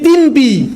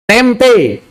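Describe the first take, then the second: First: Both vowels sound like 'i'. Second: Both vowels sound like 'e'. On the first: The speaker calls it wrong. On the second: The speaker calls it right.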